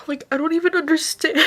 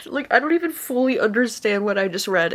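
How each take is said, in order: First: Higher, teary voice breaking; overwhelmed and close to crying; tearful. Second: Teary half-laugh; laughing through tears. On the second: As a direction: laugh at your own tears. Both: Real, not acted. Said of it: "bawling my eyes out".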